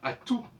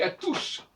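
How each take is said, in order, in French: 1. Le mot se termine sans aucun son S. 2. Le mot se termine par un son S audible. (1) "Et on devrait entendre à tout" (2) "mais on dit à tous ... la prononciation du S final est une aberration totale"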